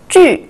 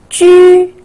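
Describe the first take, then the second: First: The pitch falls sharply from high. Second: The pitch stays high and level.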